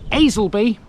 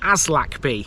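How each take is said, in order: First: The name is said without any k sound. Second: The name is said with a clear k sound. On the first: The speaker calls it right. "that is how you pronounce it" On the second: The speaker calls it wrong. "which you might think is Aslakby. It's not Aslakby"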